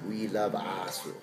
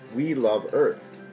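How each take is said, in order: First: It is said with a Japanese accent. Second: It is said in plain English pronunciation.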